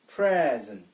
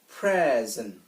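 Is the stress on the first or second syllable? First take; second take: first; first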